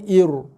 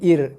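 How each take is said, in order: First: The final r is heavy and thick. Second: The final r is light and thin. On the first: The speaker calls it wrong. "Bukannya ir" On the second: The speaker calls it right. "tapi baca dengan ir, nipis eh"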